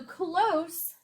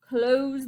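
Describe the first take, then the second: First: Pronounced as the word meaning near. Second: Pronounced as the word meaning to shut. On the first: Near something. "close means how um, um, near your position to something" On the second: To shut something. "close means I'm going to close the door"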